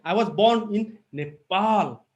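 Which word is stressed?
Nepal. The stress falls on the word Nepal. The birth was in this country, not another one. "If I give emphasis here"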